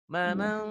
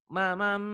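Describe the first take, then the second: First: The word ends with a nasal ng sound. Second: The word ends with a nasal m sound. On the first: The next word begins with ta. "Kalau ini tanwinnya ketemu ta, eee, mamang enggak diikhfa kan" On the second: The next word begins with mim. "karena tanwinnya ketemu mim tuh jadi idgham migunnah"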